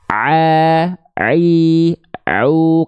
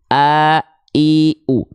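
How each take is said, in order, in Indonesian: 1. Setiap vokal diawali tekanan di tengah tenggorokan. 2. Setiap vokal diawali hentakan ringan dari bawah tenggorokan. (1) "ain di sini" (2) "Kalau hamzah turun sedikit"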